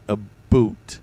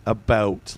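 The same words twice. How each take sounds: First: "a boot", split, with a strong ooh; Canadian ooh sound. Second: "about" with a wide open ow; American "about". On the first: Streamer explains what Canadians did, "a boot" with a strong ooh. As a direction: exaggerate the oo in "a boot". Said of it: "made that ooh sound". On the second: Streamer checks how Americans say it, "about" with open ow. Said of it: "how do Americans say it?". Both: Shown as a demonstration.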